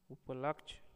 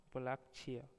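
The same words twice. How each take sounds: First: उपलक्ष्य without the final ya; उपलक्ष्य clipped to "upalaksh"; wrong pronunciation. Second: Said in the usual way. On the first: Shown as a demonstration. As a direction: end उपलक्ष्य on "laksh". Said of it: "अशुद्ध शब्द". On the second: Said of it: "शुद्ध शब्द".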